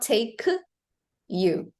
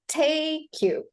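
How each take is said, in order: First: The two words are said separately, not linked. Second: The two words are linked smoothly together. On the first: The speaker calls it wrong. "Not take you" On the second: The speaker calls it right. "So you can connect the words"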